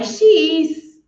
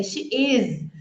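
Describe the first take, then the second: First: IS ending in a hissed, voiceless S; S sound in IS. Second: IS ending in a voiced, buzzing Z; Z sound in IS. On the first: Teacher shows students the mistake, IS with voiceless S. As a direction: say IS with an S, like "iss". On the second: Teacher corrects students' version, IS with voiced Z. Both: Shown as a demonstration. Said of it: "é com som de Z".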